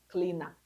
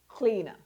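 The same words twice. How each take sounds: First: The ending is a full, r-colored 'er' sound. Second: The ending is a weak, short 'uh' sound. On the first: The speaker calls it wrong. "not cleaner" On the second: The speaker calls it right. "so your er endings, please use a"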